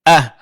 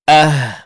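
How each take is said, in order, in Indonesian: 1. H di akhir ditahan tanpa hembusan napas. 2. H di akhir dilepaskan dengan hembusan napas yang terdengar. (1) "bukan ah" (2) "tapi ah, suara dilepaskan"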